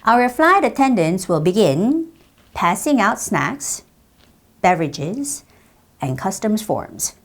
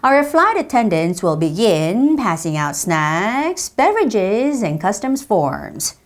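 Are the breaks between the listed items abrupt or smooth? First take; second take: abrupt; smooth. First: The phrase breaks are hard, abrupt stops. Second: The phrase breaks flow on without full stops. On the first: The speaker calls it wrong. "이렇게 딱딱하게 끊으면 안 돼요" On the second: The speaker calls it right. "멈추질 않고 뭔가 이렇게 밀어내는 느낌으로 읽었거든요"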